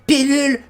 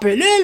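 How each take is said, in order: First: The first vowel sounds like a clear 'i'. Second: The first vowel sounds like a reduced 'e'. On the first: The speaker calls it right. "Protégeons la langue française à grands coups de pilule" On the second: The speaker calls it wrong. "J'ai-tu juste de dire encore pelule"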